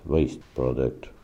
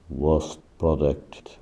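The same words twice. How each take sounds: First: Said in the usual way. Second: Waste said as "wost" before product; mispronounced waste. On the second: Real, not acted. Slipping while listing linked words, mispronounced waste. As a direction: say waste with a short rounded "o", like "wost". Slips, then says it again.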